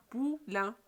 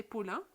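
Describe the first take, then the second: First: "Poulain" split into pou and lain, a gap between; syllable demonstration. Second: Said in the usual way. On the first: Shown as a demonstration. Teacher has pupils try the word, syllabled "Poulain". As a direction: break "Poulain" in two, the nasal ending clear. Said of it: "Essayez de prononcer poulain". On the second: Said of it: "Essayez de prononcer".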